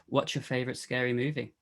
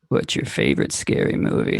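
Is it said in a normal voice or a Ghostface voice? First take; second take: normal voice; Ghostface voice. First: It is said in the speaker's normal voice. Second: It is said in an imitated Ghostface voice.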